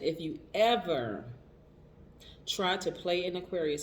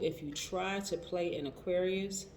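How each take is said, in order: First: It is said louder. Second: It is said at normal volume.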